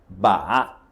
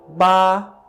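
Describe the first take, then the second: First: The pitch dips down and then rises. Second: The pitch stays level and flat throughout. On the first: "O terceiro tom é o tom que desce e depois sobe" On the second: "Primeiro tom, ba, é o tom plano"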